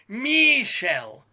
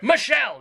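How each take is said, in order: First: The first vowel is a long ee sound. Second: The first vowel is a plain, short sound. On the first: The speaker calls it wrong. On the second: The speaker calls it right. "Pronounce it like a human being"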